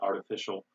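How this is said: The middle consonant is a soft D sound. "we say artificial in America"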